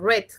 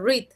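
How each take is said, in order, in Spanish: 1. La vocal es corta, como en 'red'. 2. La vocal es larga, como en 'reed'. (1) "se dice red, como el color rojo" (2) "no se dice read"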